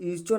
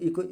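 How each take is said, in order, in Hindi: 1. बीच वाला व्यंजन ch की आवाज़ है। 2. बीच वाला व्यंजन k की आवाज़ है।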